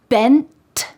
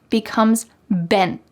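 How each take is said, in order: First: The final T is released with air. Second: The final T is stopped without release.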